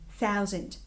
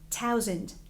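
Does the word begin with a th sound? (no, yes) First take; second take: yes; no. First: The first sound is a th sound. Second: The first sound is not a th sound. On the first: The speaker calls it right. "instead of thousand" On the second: The speaker calls it wrong. "a person might be saying something like thousand"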